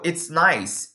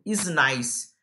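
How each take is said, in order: First: Slow, clear "it's nice" with the t before the s; contracted "it's". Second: "is nice" begun straight on the vowel, no t sound; learner's missing "it". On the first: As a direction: model "it's nice", joining "it is" into "it's". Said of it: "vira it's". ("it's nice" devagar, com o t de "it's") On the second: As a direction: slowly show the learner error "is nice", dropping "it". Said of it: "A pessoa simplesmente esquece do it". ("is nice" devagar, sem o "it") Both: Shown as a demonstration.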